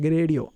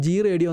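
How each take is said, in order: First: Gradio said as one word, gray-dee-oh; correct pronunciation. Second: G Radio said as two separate parts, the letter G and then the word radio; old mispronunciation. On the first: Shown as a demonstration. To viewers, showing the right way to say the tool name, Gradio as one word. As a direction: run Gradio together as a single word, not G plus radio. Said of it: "Gradio എന്നാണ് ഇതിനെ ശരിയായ രീതിയിൽ pronounce ചെയ്യേണ്ടത്".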